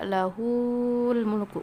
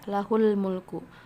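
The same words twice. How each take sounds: First: The vowel after lah is lengthened. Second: The vowel after lah is short. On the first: The speaker calls it wrong. "nggak ada lahul mulku, nggak panjang gitu ya" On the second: The speaker calls it right. "tetap baca lahul mulku"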